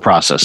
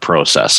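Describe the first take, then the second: First: The word is said in a non-Canadian way. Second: The word is said in a Canadian way.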